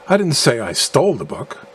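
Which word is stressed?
stole. The stress falls on the word stole. The book was acquired some other way than stealing. "implying that I acquired the book by some other means than stealing"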